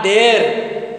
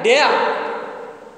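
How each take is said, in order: First: "dare" on a long, steady e with r; wrong pronunciation demo. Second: "Dare" as deh-uh, with no r; correct diphthong. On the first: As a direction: stretch "dare" without the schwa glide. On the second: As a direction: model "Dare" gliding from e into a schwa. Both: Shown as a demonstration. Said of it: "Not dare".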